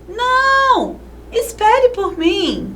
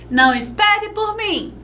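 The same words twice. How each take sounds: First: There is a short pause after the first word. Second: It is said straight through with no pause.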